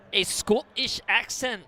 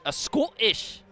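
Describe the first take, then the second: First: Loud, slow, higher-pitched Scottish accent attempt; mock Scottish accent. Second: Put-on higher, louder clipped Scottish accent try; mock Scottish accent. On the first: Streamer tries a Scottish accent for chat, hammed-up and loud. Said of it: "Can't wait to hear [name]'s Scottish accent". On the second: Streamer retries the Scottish accent for chat, mock and loud. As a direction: give the Scottish accent another shaky go. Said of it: "I can't do a Scottish".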